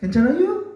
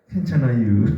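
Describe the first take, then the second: First: It rises at the end like a question. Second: It falls at the end like an answer.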